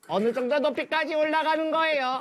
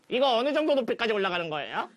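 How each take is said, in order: First: It is said in an imitated Seoul accent. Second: It is said in Pengsu's usual voice.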